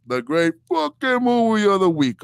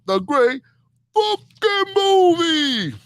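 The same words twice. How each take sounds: First: Said in the usual way. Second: Huge drawn-out announcer call, soaring high on movie; segment announcer. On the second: Acted. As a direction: belt the segment title like a TV announcer, very slow. Announcing his segment title.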